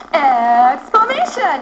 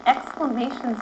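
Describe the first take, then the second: First: Loud, drawn-out excited chant; emphatic, slow exclamation demo; really excited. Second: Said in the usual way. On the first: Shown as a demonstration. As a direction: stretch it out with big excitement. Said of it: "say it really excited". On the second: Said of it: "it goes like this".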